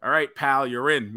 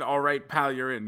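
First: Pal and in landed breezy and sure; cocky text read aloud. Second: Incredulous echo. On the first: Reading the partner's text to the co-host, breezy and smug. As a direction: read Bryan's text like a smug done deal. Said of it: "I get a text message that says". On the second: Echoing the partner's text back to him, stunned disbelief. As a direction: echo it back like you can't believe it. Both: Retold or imitated.

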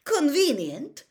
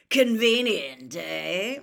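First: High, loud, drawn-out disdain; slow, rising, disdainful query. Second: Loud, slow growled jibe; drawn-out, knowing growl. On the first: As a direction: throw the word back as a scornful question. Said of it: "he was trying to sound disdainful". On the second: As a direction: growl it with a pointed questioning end. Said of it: "growled a voice from near the door". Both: A narrator's reading.

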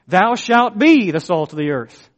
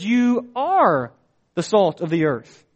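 First: Mock command. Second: "are" lifted high and held before a pause; firm statement leaning on "are", not a command; stress on ARE. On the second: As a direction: hit the word are, then let "the salt of the earth" fall. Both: Shown as a demonstration. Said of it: "it's not in the form of a command".

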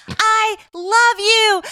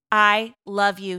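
First: High, drawn-out stadium shout; retold yell. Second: Said in the usual way. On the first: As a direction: belt it slowly as if calling across a ballpark. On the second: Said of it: "She looks at him and she's like".

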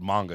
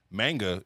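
First: Manga with an open "ah", MAHN-ga; Japanese pronunciation. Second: MANGA with a flat American first A, as in "man"; American pronunciation. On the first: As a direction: say manga the Japanese way, first vowel as in "father". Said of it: "is how it's pronounced". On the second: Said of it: "if you're an American". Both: Shown as a demonstration.

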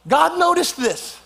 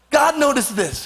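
First: "noticed" drawn out high and slow; stress on noticed. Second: "God" punched high; stress on God. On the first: Preacher marvels to congregation, leaning on "noticed". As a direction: lean hard on "noticed", slowly. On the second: Preacher tells congregation, stressing "God". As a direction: hit the word "God". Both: Shown as a demonstration. Preacher repeats line, shifting emphasis.

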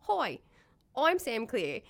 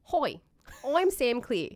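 First: High, loud Australian greeting; broad Aussie hi. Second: High, loud broad Aussie greeting; impression of Sam. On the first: Retold or imitated. Retelling Sam's first video intro, broad Australian accent. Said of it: "it was just". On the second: Friend mimics Sam's Australian hello, broad Australian accent. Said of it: "do an impression of Sam".

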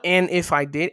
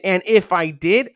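First: Said in the usual way. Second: Louder and rising on "if"; stress on if. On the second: Shown as a demonstration. Preacher rereading a verse, stressing "if". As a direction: lean hard into "if" as he rereads the verse. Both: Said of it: "what is he saying?".

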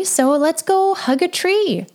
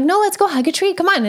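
First: Higher, slow and coaxing, drawing the words out; gentle suggestion. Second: Higher, brushing off her doubt, upbeat; playful insisting. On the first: Mom gently inviting her daughter to hug a tree, slow and higher. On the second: Mom playfully insisting her daughter hug a tree, higher. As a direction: cheerfully overrule the "that's silly". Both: Retold or imitated.

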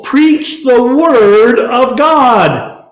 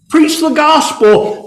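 First: "Preach" slow and weighty; slow stress on preach. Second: "Preach" hit high and drawn out; slow, lifted "Preach the gospel"; stress on preach. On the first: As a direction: drag out "Preach the word of God". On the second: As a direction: lean hard on "Preach". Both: Shown as a demonstration. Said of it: "repeated command".

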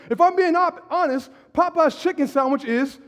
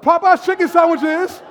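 First: Said in the usual way. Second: Louder and higher, for the whole room. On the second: Shown as a demonstration. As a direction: read it out loud to the congregation. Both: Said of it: "say it out loud".

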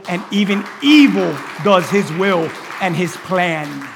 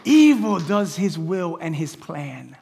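First: "evil" pounded out loud and slow; stress on evil. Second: "Evil" stressed, drawn out and slow; slow emphatic repeat. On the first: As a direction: lean hard on "evil", slowly. Preacher emphasizes evil. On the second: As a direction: repeat it slowly, weighing "Evil". Repeats the line slower. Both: Acted.

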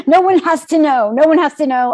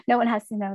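First: Loud, pitched-up, urgent self-reassurance; frantic insistence. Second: Said in the usual way. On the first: Retold or imitated. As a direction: talk yourself into the cover-up, loudly. Hiding the positive test.

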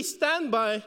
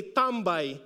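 First: "standby" in plain English, STAND-by. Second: "tambay" said the Tagalog way, tam-BAY. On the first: Pastor giving his church the English original of tambay. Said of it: "it's really standby". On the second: Pastor showing his church the Filipino word for standby. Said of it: "we say it as tambay". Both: Shown as a demonstration.

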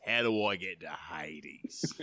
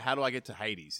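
First: Slow, low Aussie drawl; low, hammed-up Aussie voice; broad Aussie accent. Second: Said in the usual way. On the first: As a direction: lay the Australian accent on thick and slow. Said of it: "there's the Aussie accent". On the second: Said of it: "it's, instead of".

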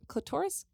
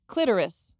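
First: Clitoris as "kluh-TOR-is", questioning rise; stress on second syllable. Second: Clitoris as "KLIT-er-is", falling; stress on first syllable. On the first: Reader unsure how to pronounce it, clitoris as "kluh-TOR-is". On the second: Reader trying the other pronunciation, clitoris as "KLIT-er-is". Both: Shown as a demonstration. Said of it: "How do you pronounce it?".

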